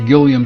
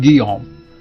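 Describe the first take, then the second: First: The name has an English-style pronunciation. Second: The name has a French-style pronunciation. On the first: This is how the locals say it. "they say it that way" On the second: This is not how the locals say it. "not the French Guillaume"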